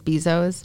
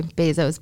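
First: "Bezos" with first syllable like "bee"; BEE-zohs pronunciation. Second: "Bezos" with first syllable like "bay"; BAY-zohs pronunciation. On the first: Co-host showing the different ways, "Bezos" as BEE-zohs. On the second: Co-host showing the different ways, "Bezos" as BAY-zohs. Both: Shown as a demonstration. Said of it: "everyone says it a different way".

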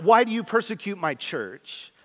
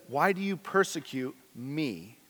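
First: Higher, brisker misquote of the line; the mistaken reading said lightly; wrong version. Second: The real line, hushed and solemn; solemn correct reading. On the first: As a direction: toss off the wrong wording a bit higher. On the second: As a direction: say the true words quietly and gravely. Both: Shown as a demonstration. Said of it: "No, it s-, says".

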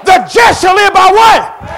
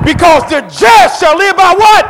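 First: Louder, higher slow shouted repeat of the question; preaching call-out. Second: Loud, high, slow shouted question to the crowd; preaching call-out. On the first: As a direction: hammer it again so they answer. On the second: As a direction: draw the answer out of the church. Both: Acted.

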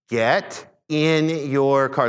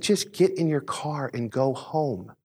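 First: Very slow, word-by-word order; slowed right down. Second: Slow, evenly paced instruction; slow, calm order. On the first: Dad repeating himself to a confused stranger, extra slow. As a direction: spell it out slowly so he understands. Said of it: "I said it slower just so he could understand it". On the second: Dad telling a stranger to go home, slow and calm. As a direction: tell him slowly, keeping it level. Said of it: "I said it slower". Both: Retold or imitated.

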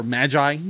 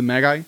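First: "Magi" with a soft g, MAJ-eye; soft-g pronunciation. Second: "Magi" with a hard g, MAG-eye; hard-g pronunciation. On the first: Reader offering the other option, soft-g "Magi". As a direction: say "Magi" with g as in "gem". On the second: Unsure reader naming Gift of the Magi, hard-g "Magi". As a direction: say "Magi" with g as in "gap". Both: Shown as a demonstration. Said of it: "uh, or Magi".

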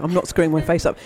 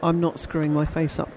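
First: "not" hit louder and firm; stress on not. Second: Said in the usual way. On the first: Shown as a demonstration. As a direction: punch "not" in protest.

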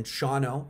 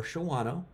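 First: "Shawano" said as SHAW-no; two-syllable pronunciation. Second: "Shawano" said as sho-WAH-no; three-syllable pronunciation. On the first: Giving viewers both search spellings, "Shawano" as SHAW-no. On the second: Giving viewers both search spellings, "Shawano" as sho-WAH-no. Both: Shown as a demonstration. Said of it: "they actually pronounce it both ways".

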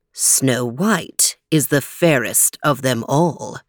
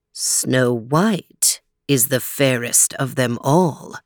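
First: Low, slow magic mirror; shimmering echoing mirror voice. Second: Lower, slower magic mirror repeating; shimmering echoing mirror voice. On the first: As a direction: speak slowly and deeply as the mirror. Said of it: "said the magic mirror". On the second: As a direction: drag it out, deep and calm. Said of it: "repeated the magic mirror". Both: Acted.

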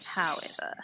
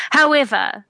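First: Very soft, in-character aside; barely voiced "however"; hushed restart. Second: Raised, louder in-character voice; higher, forceful "However"; declaiming. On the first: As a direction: whisper "however" under the breath. Same word restarted much softer. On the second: Acted. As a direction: announce HOWEVER loud and high. Player's in-character speech, restarted.

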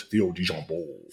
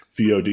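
First: "Theo DeJambeau" in a hammed-up New Orleans drawl; showy, phony New Orleans pronunciation; fake New Orleans accent. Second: Said in the usual way. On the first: Shown as a demonstration. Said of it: "it's always Theo DeJambeau". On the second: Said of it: "I was saying you don't say it".

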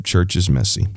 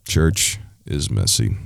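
First: Said in the usual way. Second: Lower, softer and slow, like a rueful afterthought; sighed-down low repeat of Church is messy; low, slow echo. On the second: Real, not acted. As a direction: drop it down and drag it out. Repeated refrain, two deliveries.

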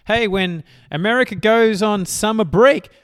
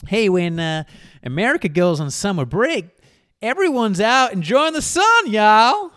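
First: Said in the usual way. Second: Loud, high-pitched hammy American accent; badly faked American y'all accent; attempted American accent. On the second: Shown as a demonstration. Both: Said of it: "I'll try to do it in an American accent".

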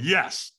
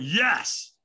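First: Said in the usual way. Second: Higher, more forceful YES; retold second, firmer yes; stronger yes. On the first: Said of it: "Then I went". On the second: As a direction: push the yes harder. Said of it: "I went".

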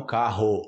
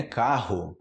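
First: "carro" as "KA-ho", full final O; wrong final O. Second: "Carro" as "KA-hoo", breathed R; final O as U. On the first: Teacher showing what to avoid, "carro" ending in "ho". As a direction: end "carro" on a round "ho". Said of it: "não carro". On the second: Teacher showing the Portuguese form, "Carro" as "KA-hu". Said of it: "como se fosse em inglês". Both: Shown as a demonstration.

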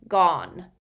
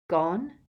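First: Louder, falling one-word confession; anguished elf. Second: Questioning rise on one word; deflated echo. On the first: Elf confesses the loss, anguished croak. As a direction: blurt it out as the elf. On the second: Harry echoes the elf's word, deflated. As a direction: echo it back, elation draining away. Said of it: "echoed Harry, elation flooding out of him". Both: A narrator's reading.

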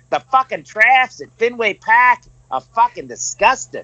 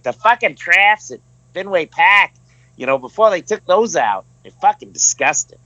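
First: Put-on laughing through a thick Boston accent, pitched higher; doing the Boston guy and cracking up mid-line. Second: Put-on retelling it in a lighter Boston accent, slightly higher; mild Boston accent imitation of the guy. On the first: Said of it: "hardcore Boston accent". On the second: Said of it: "It's good accent".

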